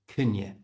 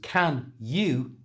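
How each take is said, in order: First: The words are squeezed into one reduced word. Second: Both words are said fully and separately.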